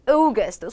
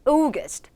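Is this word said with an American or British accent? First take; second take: British; British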